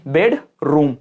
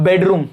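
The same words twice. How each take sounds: First: बेडरूम in two pieces, bed, then room; split into syllables. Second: Said in the usual way. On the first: Shown as a demonstration. Teacher showing students syllables, word split in two. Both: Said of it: "कितने टुकड़ों में तोड़".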